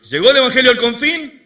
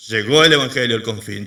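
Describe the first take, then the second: First: "¿Llegó el evangelio al confín?" high, loud, rising question; rhetorical question. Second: "Llegó el evangelio al confín" low and loud, falling; emphatic answer. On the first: Preacher challenges congregation, "¿Llegó el evangelio al confín?" as a loud question. Preacher asks, then answers himself. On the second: Preacher answers his own question, "Llegó el evangelio al confín" as firm statement. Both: Real, not acted.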